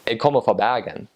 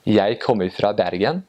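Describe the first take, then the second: First: Bergen accent with the R scraped at the back of the throat; proud Bergen local's Western Norwegian accent; Western Norwegian dialect. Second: Light, sing-song Oslo accent on Jeg kommer fra Bergen; Eastern Norwegian dialect. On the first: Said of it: "if you are actually from Bergen". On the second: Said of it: "so in the Eastern dialect". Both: Shown as a demonstration.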